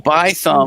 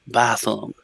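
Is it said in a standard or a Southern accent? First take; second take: standard; Southern. First: It is said in a standard English accent. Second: It is said in a Southern accent.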